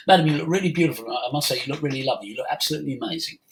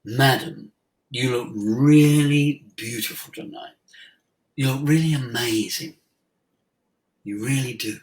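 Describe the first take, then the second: First: Quick, throwaway compliment, fast; offhand fast flattery; rushed compliment. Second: Mean every word, unhurried; sincere compliment. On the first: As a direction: rattle it off without meaning it. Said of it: "And then I carried on talking". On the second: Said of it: "breath in". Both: Retold or imitated.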